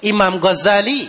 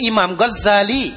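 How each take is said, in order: First: กอซาลี pronounced "Gho-za-li", the z not doubled; single-z pronunciation. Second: กอซาลี pronounced "Ghoz-za-li", holding the z; doubled-z pronunciation. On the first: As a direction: say กอซาลี with one light z. (ออกเสียง กอซาลี โดยไม่ย้ำเสียงซ) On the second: (ออกเสียง กอซาลี แบบย้ำเสียงซซ้อน) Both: Shown as a demonstration. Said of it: "เนี่ยนักปราชญ์เขาก็เถียงกัน".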